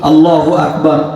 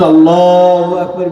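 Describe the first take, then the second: First: The phrase is said at a normal length. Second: The phrase is stretched out longer than usual. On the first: The imam is going into bowing. "স্বাভাবিক" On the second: The imam is going into prostration. "একটু টান দেয় বেশি"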